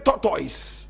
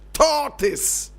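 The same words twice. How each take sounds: First: The word is said the Nigerian way. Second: The word is said the standard way. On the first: The speaker calls it wrong. "in Nigeria they say" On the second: The speaker calls it right. "Correct pronunciation"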